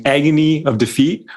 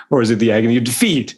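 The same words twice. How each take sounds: First: Agony stressed, pitched up. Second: Quick, shifted stress on agony of defeat; alternate stress placement. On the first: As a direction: lean on agony first. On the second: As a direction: try the other emphasis, faster. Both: Shown as a demonstration. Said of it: "Where do you put the emphasis".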